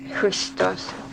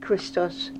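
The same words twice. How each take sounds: First: It begins with a harsh, throaty consonant. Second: It begins with a plain K consonant. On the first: "It's a hard sound" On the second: "Just the regular K"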